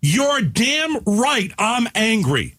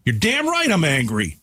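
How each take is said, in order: First: Higher and very slow, every word hammered; heated, deliberate declaration; slow angry. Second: Said in the usual way. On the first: Real, not acted. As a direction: drag it out in open anger. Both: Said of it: "Do I have to yell?".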